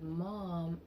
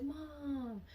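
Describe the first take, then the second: First: Said in the usual way. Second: Calling mom. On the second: Retold or imitated.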